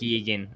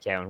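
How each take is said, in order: First: The name sounds like Keegan, with an ee vowel. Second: The name sounds like Cowan, with an ow vowel. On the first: This is how the bearer of the name says it. "he pronounces it like Keegan" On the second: This is how most people would read the name. "I say Cowan"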